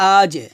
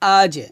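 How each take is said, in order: The two takes are said the same way.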